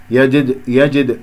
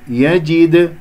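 First: يجد with the jim's kasra cut short; يجد, jim vowel barely sounded; snatched kasra. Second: يجد with a complete i on the jim; clearly voiced jim vowel in يجد; full kasra. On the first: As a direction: rush over the i in يجد. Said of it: "تختلس عند كسرة". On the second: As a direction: give the kasra in يجد its whole sound. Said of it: "هكذا". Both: Shown as a demonstration.

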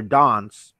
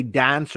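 First: "dance" said as "dahns"; broad-a pronunciation. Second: "dance" with the flat A of "cat"; short-a pronunciation. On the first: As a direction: say "dance" with the long AH of "father". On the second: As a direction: say "dance" with an American-style A, as in "cat". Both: Shown as a demonstration. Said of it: "whether I say dance or dance".

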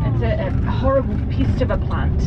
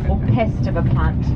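First: New Zealand accent, "pest" said like "pist"; broad kiwi accent. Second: Said in the usual way. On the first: Real, not acted. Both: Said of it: "my very thick New Zealand accent can come through".

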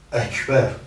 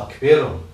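First: Экбер with an open «э» at the start; original pronunciation. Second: «акбером» with «а» replacing the first «э»; altered pronunciation. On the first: Teacher shows the original word, open «э» in «экбер». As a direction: say «экбер», keeping the pure «э». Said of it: "произнести этот звук". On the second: Teacher shows the changed word, «а» starting «акбером». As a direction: say «акбером», opening on a clear «а». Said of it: "Поэтому меняют её на". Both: Shown as a demonstration.

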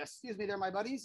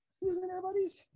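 First: Said in the usual way. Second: Higher, singsong request to pets; sweet high voice for the animals; high pet-talk voice. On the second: Real, not acted. Repeat to tortoises, higher pitch.

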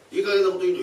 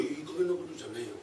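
First: Angry thief. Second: Said in the usual way. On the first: Acted.

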